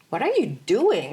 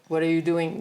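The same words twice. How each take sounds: First: It is said with a lively, bouncing melody. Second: It is said with a flat, even melody.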